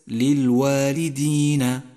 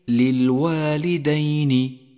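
First: The d is followed by an i vowel. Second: The d is followed by an a vowel. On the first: The speaker calls it wrong. "وليست مكسورة" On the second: The speaker calls it right. "فالدال مفتوحة"

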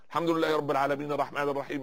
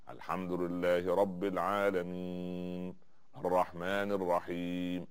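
First: It is recited quickly and hurriedly. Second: It is recited slowly and calmly. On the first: The worshipper rushes through the prayer. The speaker calls it wrong. "ينقرها نقر الغراب ... بسرعة" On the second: The worshipper prays with humility. The speaker calls it right. "هكذا"

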